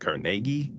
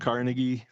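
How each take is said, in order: First: The name is said with a Scottish-style pronunciation. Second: The name is said with the usual American pronunciation. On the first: This is how the man himself said it. "pronounced it Carnegie because he was Scottish" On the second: This is how people here usually say it. "so we call him Carnegie"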